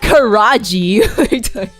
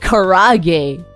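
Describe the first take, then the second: First: It ends with a 'jee' sound. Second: It is said with American-style vowels. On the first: The speaker calls it wrong. "It's still not karaji" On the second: The speaker calls it right. "if you say it American, it's like karage"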